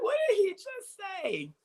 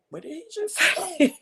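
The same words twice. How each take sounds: First: Very high, stunned disbelief; astonished again. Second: High astonished gasp of a question. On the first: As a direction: squeak it out in disbelief. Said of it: "I went". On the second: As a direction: act stunned, much higher. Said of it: "Of course, I went". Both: Retold or imitated.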